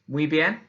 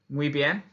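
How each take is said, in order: The two takes are said the same way.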